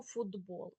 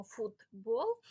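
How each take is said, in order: First: «футбол» with т voiced to д, фудбол; pronounced as heard. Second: «футбол» drawn apart with a clear voiceless т, фут-бол; pronounced as written. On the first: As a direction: run «футбол» together with a д sound. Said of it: "а, а чуємо". (вимова з дзвінким д: «фудбол») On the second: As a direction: keep a crisp т in «футбол». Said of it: "Тому пишемо". (чітке глухе т: «фут-бол») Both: Shown as a demonstration.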